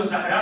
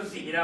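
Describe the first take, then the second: First: زہرا said as "Zahra", a-vowel after z; first vowel of زہرا an open short a; zabar on ze. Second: زہرا said as "Zihra", i-vowel after z; first vowel of زہرا a short i; zer under ze. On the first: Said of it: "اگر زبر ہوگا تو". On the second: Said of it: "زیر ہوگا تو". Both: Shown as a demonstration.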